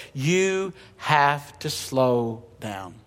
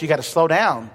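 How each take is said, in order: First: Very slow and soft, letting each word hang; slow, hushed, deliberate. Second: Said in the usual way. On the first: Shown as a demonstration. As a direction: drag the words out to show slowing down. Preacher enacts slowing down.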